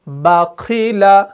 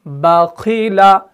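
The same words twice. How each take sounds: The two takes are said the same way.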